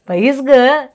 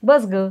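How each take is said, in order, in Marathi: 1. क्रियापद दोन स्वरांनी म्हटलं जातं, जसं 'bais'. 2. क्रियापद छोटं म्हटलं जातं, जसं 'bas'. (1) "तिथं तसं नाही" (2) "पुण्यात कुणी पण कसं म्हणेल"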